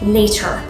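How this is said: The consonants are hit crisply and tightly. "really hit all of your consonant sounds"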